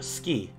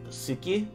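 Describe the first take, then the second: First: The u vowel after s is dropped. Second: The u vowel after s is pronounced. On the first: "ends up being ski, where the, the u sound also gets dropped" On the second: "words like suki"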